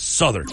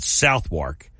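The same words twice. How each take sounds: First: The name is pronounced the way locals say it. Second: The name is pronounced just as it is written. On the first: "but it's Southwark over there" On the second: "it's spelled Southwark"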